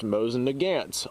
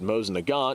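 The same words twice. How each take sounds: First: The name gets a common Americanized pronunciation. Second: The name gets its original creator's pronunciation. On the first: The speaker calls it wrong. "mispronounced a lot, especially here in these southern states" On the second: The speaker calls it right. "which is the way the name is uh, pronounced"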